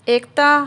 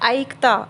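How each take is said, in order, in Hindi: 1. पहला स्वर सादा 'e' जैसा बोला जाता है। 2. पहला स्वर 'ai' जैसा बोला जाता है। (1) "एकता हम ऐसे बोल रहे हैं" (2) "ऐकता हम ऐसे नहीं बोलते"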